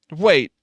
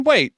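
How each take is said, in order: First: Said in the usual way. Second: Sudden surprise. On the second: Real, not acted. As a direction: stop short, caught off guard. Surprised at chat's claim.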